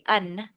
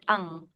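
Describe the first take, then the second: First: The syllable ends with a plain N sound. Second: The syllable ends with an NG sound. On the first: The speaker calls it wrong. "No need to say un" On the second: The speaker calls it right. "but ung. It's like the N G sound"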